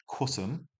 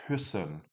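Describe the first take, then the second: First: Kussen with a short oo vowel; plain u. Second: Küssen with a tight ee-oo vowel; ü sound. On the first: Teacher modelling kussen without umlaut. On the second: Teacher modelling küssen with umlaut. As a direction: round lips for ü in küssen. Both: Shown as a demonstration. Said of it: "Without the umlaut".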